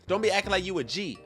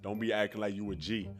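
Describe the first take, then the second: First: It is read in an ordinary, natural voice. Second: It is read in a put-on imitation voice. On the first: The speaker calls it wrong. "My bad" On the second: The speaker calls it right. "I'm supposed to read in the Shaq voice"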